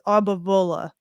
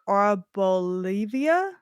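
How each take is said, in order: First: The name ends with a short 'vuh' sound. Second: The name ends with an extra 'ee-uh' sound. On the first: The speaker calls it right. "but it's" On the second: The speaker calls it wrong. "I always wanna say, like"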